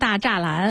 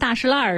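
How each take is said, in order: First: The name sounds like da zha lan. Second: The name sounds like da shi lan. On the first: The speaker calls it wrong. "不念大栅栏" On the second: The speaker calls it right. "就跟大石烂似的"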